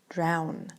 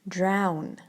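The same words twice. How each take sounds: The two takes are said the same way.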